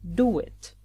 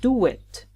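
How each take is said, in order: First: The words are linked with a w glide. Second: The words are linked with a w glide.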